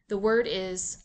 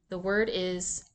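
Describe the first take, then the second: No difference in how they are said.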